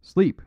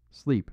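First: Much higher, louder snapped command; sharp cry. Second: Said in the usual way. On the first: A narrator's reading. Priest commanding his shaken friends, sharp loud cry. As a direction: fire it off like a gun. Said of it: "cried Father Brown".

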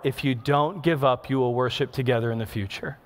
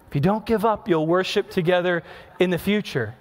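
First: Softer, lower and gentle, like a quiet inner voice. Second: Said in the usual way. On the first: Retold or imitated. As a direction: breathe it softly as a tender promise. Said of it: "the Holy Spirit so gently spoke". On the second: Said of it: "so gently spoke".

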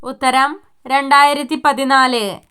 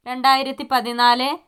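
First: രണ്ടായിരത്തി stressed, പതിനാല് falling; firm falling reveal; answer reveal. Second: രണ്ടായിരത്തി പതിനാല് with a rise on പതിനാല്; one of the options; listing tone. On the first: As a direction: declare the final answer. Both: Shown as a demonstration.

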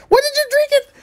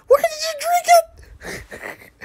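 First: Very high squeaky voice, way up. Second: Hammed-up slow, very high sob; mock crying. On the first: Pretend. Streamer squeaks at the game's gross drink. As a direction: squeak it out like a shocked cartoon. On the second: Streamer fake-sobs over the gross drink. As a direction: wail it out like fake heartbreak.

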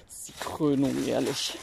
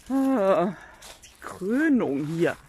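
First: Said in the usual way. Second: Very slow stretched Krönung; drawn-out groan. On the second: Real, not acted. Owner exasperated with the hens, slow drawn-out Krönung.

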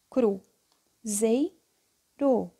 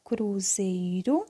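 First: "Cru, zei, ro" in three detached syllables; sílabas separadas. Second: Said in the usual way. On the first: Shown as a demonstration. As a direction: pause clearly between "Cru", "zei" and "ro". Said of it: "se eu ordenasse assim". ("Cru, zei, ro" sílaba por sílaba, com pausas) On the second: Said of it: "vou escrever a palavra".

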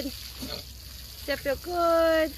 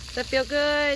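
First: Very slow, higher coo to a pet; drawn-out cooing. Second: Said in the usual way. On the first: Real, not acted. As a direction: stretch every word out, cooing to an animal. Cooing to pig being hosed.

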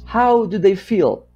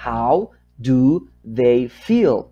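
First: Said in the usual way. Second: "how do they feel" very slow, each word on its own; slow dictation. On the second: Shown as a demonstration. Teacher writing number three for learners, slow word-by-word dictation. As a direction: drag out each word with gaps between.

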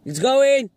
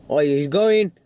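First: Higher, punchy commentary; excited exclamation. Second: Said in the usual way. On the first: Real, not acted. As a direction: cry out as it finally happens. Excited repeat as car moves.

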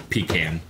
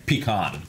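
First: Pecan said as "pee-CAN"; pecan ending like the word can; pronunciation demo. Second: Pecan said as "pee-KAHN"; pecan with an open "ah" in the second syllable; corrected pronunciation. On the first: Retelling a rant on pronunciation, pronunciation demo. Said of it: "how stupid it is to say". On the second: Correcting their own retelling of the rant, corrected pronunciation. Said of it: "No, I'm sorry". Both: Shown as a demonstration.

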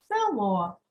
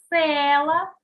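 First: Село stressed on the final О; stress on last syllable. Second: Села with a loud, drawn-out Е; stress on first syllable. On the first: Teacher reads the exercise, село stressed on final О. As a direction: let the beat fall on О in село. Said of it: "наголос в слові село". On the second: Teacher reads the exercise, Села stressed on Е. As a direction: hit the first vowel of Села hard. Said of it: "став наголошеним голосний". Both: Shown as a demonstration.

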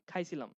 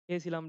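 First: খাইছিলাম, contracted with an s-like ছ; village dialect form. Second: Said in the usual way. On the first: Shown as a demonstration. Teacher showing village speech, খাইছিলাম in rural contracted form. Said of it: "গ্রাম অঞ্চলের ভাষায় বলি". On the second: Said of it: "আমাদের গ্রাম অঞ্চলের ভাষায় বলি".

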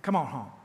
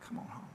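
First: Said in the usual way. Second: Much softer, almost breathed; soft echo. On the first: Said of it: "repeated softly right after". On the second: Shown as a demonstration. Pastor repeating the call to his flock as a hushed echo. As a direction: let the words fade out like an echo. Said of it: "echo of the line before".

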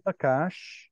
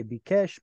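First: Bakash with an "a" in both syllables; Bakash vowels. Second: Bikesh with "i" then "e" vowels; preferred Bikesh pronunciation. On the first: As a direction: say "Bakash" as ba-KASH, open vowels. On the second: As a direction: say "Bikesh" as bi-KESH. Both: Shown as a demonstration. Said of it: "I would say Bikesh".

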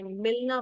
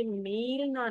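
First: मिलना with a short i; quick i in मिलना, not ee. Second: मीलना with a long, stretched ee; wrong take मीलना, held ee. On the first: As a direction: say मिलना with a brief first vowel. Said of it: "मिलना बोला है". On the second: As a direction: draw out the first vowel in मीलना. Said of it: "मीलना नहीं बोला". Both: Shown as a demonstration.

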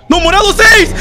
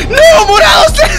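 First: Loud, higher protest at the screen; frustrated yell. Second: Very high, loud, desperate scream; panicked scream. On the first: Player arguing with the game's call, loud frustrated yell. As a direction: shout back at the game in dismay. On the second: Player losing the round, screaming the same words in despair. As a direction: scream it as if all is lost. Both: Real, not acted.

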